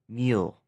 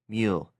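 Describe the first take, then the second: First: The vowel sounds like the 'ee' in 'meal'. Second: The same.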